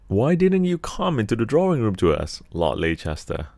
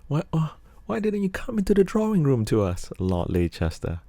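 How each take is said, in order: First: It is said in his normal deep voice. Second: It is said in a put-on female voice.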